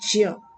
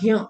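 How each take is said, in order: First: It is said with a j sound, like jya. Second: It is said with a g sound, like gya. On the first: The speaker calls it right. "इसका pronunciation क्या करेंगे हम? ज्य।" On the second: The speaker calls it wrong. "इसका pronunciation आप लोग करते हो ज्ञ, ज्ञ नहीं"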